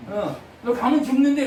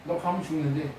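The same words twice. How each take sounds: First: Louder and higher, stressing the doom; emphatic prophet warning. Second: Said in the usual way. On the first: Shown as a demonstration. Prophet warning the king, said louder and higher. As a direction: hammer home that he will die. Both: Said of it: "이렇게 얘기한단 말이에요".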